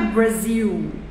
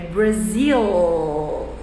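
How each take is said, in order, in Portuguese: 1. O L final é falado como U. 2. O L final é falado como um L claro. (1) "não é Brasil" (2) "as palavras que terminam em L têm som de L"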